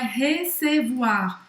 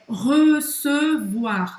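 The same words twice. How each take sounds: First: The first vowel is open and unrounded. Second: The first vowel is closed and rounded. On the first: The speaker calls it wrong. "não é recevoir" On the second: The speaker calls it right. "presta atenção que é fechado"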